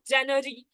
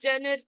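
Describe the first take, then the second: First: The word sounds like January. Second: The word sounds like Januar. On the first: "some students they'll be pronouncing it as January" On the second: "For some students they'll be pronounced as Januar"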